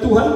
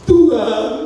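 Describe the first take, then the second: First: The word is said quickly and casually. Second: The word is drawn out slowly.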